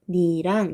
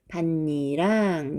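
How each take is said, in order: First: The first syllable ends in a stopped t sound. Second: The first syllable ends in a nasal n sound. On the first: The speaker calls it wrong. "밭 한번 끊었다가 발음을 해야 하니까 좀 어색하고 어려워" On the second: The speaker calls it right. "느로 바꿔서 발음을 최종적으로는"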